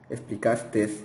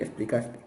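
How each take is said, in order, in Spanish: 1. La palabra termina con un sonido de s añadido. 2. La palabra termina en un sonido vocálico simple. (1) "cuando se habla con la S al final" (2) "La forma correcta es aceptaste y explicaste"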